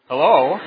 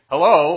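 First: It is said in a suggestive, creepy way. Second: It is said in a plain, friendly, professional way. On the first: The greeting hints at unwanted romantic interest. The speaker calls it wrong. "a little bit creepy" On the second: A polite, ordinary greeting. The speaker calls it right. "very nice and normal and professional"

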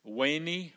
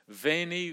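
First: The word begins with a W sound. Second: The word begins with a V sound.

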